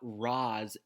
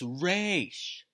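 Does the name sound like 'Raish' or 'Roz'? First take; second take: Roz; Raish. First: The name has an 'ah' vowel and ends in z. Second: The name has an 'ay' vowel and ends in sh. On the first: The speaker calls it wrong. "pronouncing Ra's al Ghul's name wrong. It's not Roz" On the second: The speaker calls it right. "it's Raish"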